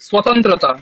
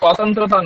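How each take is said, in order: First: The first vowel is a short 'a' sound. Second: The first vowel is a long 'aa' sound. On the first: The speaker calls it right. "প্রথমটায় আকার নেই" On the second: The speaker calls it wrong. "স্বাতন্ত্রতা নয়"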